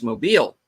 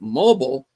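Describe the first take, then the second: First: It is said the Southern way. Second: It is said the non-Southern way. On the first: The speaker knows the local pronunciation. The speaker calls it right. "as every Southerner knows, it's pronounced Mobile" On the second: The speaker is not from the South. The speaker calls it wrong. "She pronounces it mobile"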